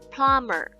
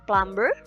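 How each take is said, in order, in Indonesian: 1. Bunyi b diam, dengan vokal uh. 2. Bunyi b dibaca, dengan vokal oo. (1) "cara bacanya adalah plumber" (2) "masih ada sebuah kesalahan"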